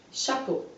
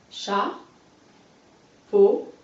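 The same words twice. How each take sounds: First: Said in the usual way. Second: Chat, long pause, then a louder peau; split into syllables. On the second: Shown as a demonstration. Teacher cutting a word for a pupil, chat and peau held apart. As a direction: break the word into chat and peau, each alone. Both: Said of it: "On recolle".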